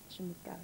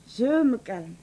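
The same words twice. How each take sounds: First: Much softer, lower, dying away; a breathless self-soothing murmur; near whisper. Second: Said in the usual way. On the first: Acted. Wife talking herself down, almost whispered.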